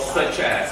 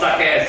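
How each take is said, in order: First: The first word ends with a 'ch' sound. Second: The first word ends with a 'k' sound. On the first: The speaker calls it right. "we say such or such as, so very quickly" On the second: The speaker calls it wrong. "Not suck as, suck as mean different story"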